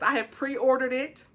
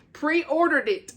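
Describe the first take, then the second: First: Said in the usual way. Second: "Pre-ordered it" slow and higher, drawn out; emphatic repeat. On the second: Real, not acted. Book fan stressing her order to viewers, emphatic repeat. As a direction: stretch out "Pre-ordered it" with raised pitch.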